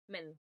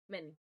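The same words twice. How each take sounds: First: The m goes straight into the n. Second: The same.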